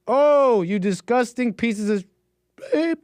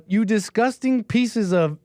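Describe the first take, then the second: First: High, straining mock-kid falsetto; failed falsetto. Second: Slow, drawn-out mock outrage; stretched words, slightly raised, no falsetto; imitation without falsetto. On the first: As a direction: reach for falsetto and crack on the attempt. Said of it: "I can't falsetto". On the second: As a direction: quote the kid slowly in your own voice. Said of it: "let's not do that again".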